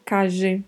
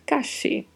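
First: The double L sounds like the s in measure. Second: The double L sounds like English sh. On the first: "Pode ter som de J" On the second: "E pode ter som de X"

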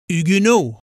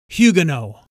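First: The word is given a French pronunciation. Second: The word is given a British pronunciation. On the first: "the French pronounce the Americanized word Huguenot as Huguenot" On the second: "the British pronunciation is Huguenot"

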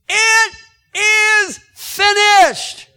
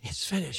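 First: It is shouted loudly and forcefully. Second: It is said quietly, without shouting.

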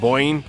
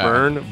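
First: The vowel sounds like 'oy'. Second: The vowel is a plain 'er' sound.

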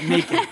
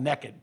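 First: It is said with a standard US pronunciation. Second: It is said with a Southern US pronunciation. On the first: "not naked" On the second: "my family is all from the South, and it's called naked"

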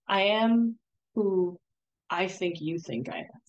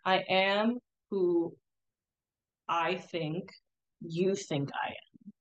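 First: It is said at a normal speed. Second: It is said more slowly.

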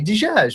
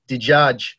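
First: It is said lightly, in a Levantine accent. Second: It is said heavily and gutturally, in an Iraqi accent.

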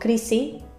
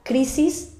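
First: Murcian accent with the final s dropped. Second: Standard accent with the final s pronounced.

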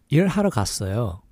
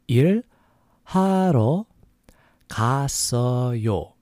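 First: It is said fast. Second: It is said slowly.

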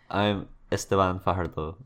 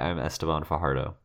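First: The name is said in his native accent. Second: The name is said in an anglicized accent. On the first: "There's no way to say it without just my accent sounding weird"

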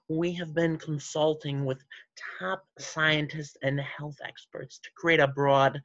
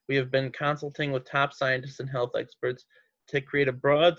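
First: It is read in a put-on villain character voice. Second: It is read in a plain, normal voice.

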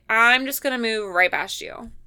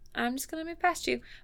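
First: It is said in a firm, annoyed tone. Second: It is said in a sweet, light tone.

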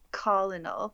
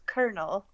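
First: Colonel is said with a nonstandard pronunciation. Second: Colonel is said with the standard English pronunciation. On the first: The speaker calls it wrong. "I'm saying colonel, which is not the right word" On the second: The speaker calls it right. "It's colonel"

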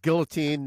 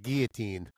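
First: The word is said with an English pronunciation. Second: The word is said with a French pronunciation. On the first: The speaker calls it right. "And it's guillotine" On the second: The speaker calls it wrong. "not guillotine"

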